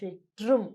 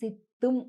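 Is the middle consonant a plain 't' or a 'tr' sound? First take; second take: tr; plain t. First: The middle consonant is a tr cluster. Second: The middle consonant is a plain doubled t. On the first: This is how Tamil speakers pronounce it. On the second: This is how it is written in Telugu books. "మామూలుగా తెలుగులో పుస్తకాలలో ఇక్కడ సిత్తుం అనుంటుంది"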